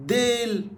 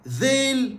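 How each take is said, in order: First: ديل opened with a plain d; Egyptian d for ذ. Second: ذيل opened with a voiced th, tongue out; slow, high, clear "dheil" for ذيل; standard Arabic ذ. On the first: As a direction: say ديل as "deil", tongue in. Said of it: "لهجة". (ديل بالمصري، بدال بدل الذال) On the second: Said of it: "ستاندرد". (ذيل بالفصحى، ذال بإخراج اللسان) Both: Shown as a demonstration.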